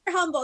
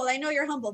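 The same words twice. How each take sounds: First: YOU'RE hit higher and louder; insisting. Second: You're stressed, a little higher; repeated insistence. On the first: Praising the guest, insisting You're humble. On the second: Repeating the praise to the guest, milder stress. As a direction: lean on you're again, less hard. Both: Real, not acted.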